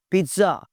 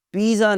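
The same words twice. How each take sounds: First: पिज़्ज़ा said peet-sa, with a light ts; correct pizza. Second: पिज़्ज़ा said peez-za, with a z; the wrong way: peez-za; wrong pizza. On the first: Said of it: "ज़रा हल्का सा". (पिज़्ज़ा सही: "पित्सा") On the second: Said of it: "पिज़्ज़ा नहीं बोलना भाई". (पिज़्ज़ा ग़लत: "पिज़ा") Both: Shown as a demonstration.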